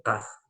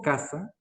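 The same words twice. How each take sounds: First: "casa" with the c made back in the throat; glottal, rejected pronunciation. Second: "casa" slowly, with an ordinary front k; plain C pronunciation. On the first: Teacher shows what she does not say, throaty "casa". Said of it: "Yo no digo casa". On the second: Teacher shows what she does say, slow plain "casa". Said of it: "Digo casa". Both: Shown as a demonstration.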